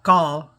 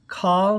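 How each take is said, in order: First: The first sound has no puff of air. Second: The first sound has a strong puff of air. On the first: The speaker calls it wrong. "Not call" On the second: The speaker calls it right. "the aspirated, the air coming out"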